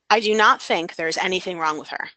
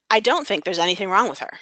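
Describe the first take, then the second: First: The words do not are said in full. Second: The words do not are contracted to don't. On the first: It sounds more formal. "one doesn't" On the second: It sounds more informal. "One has contractions"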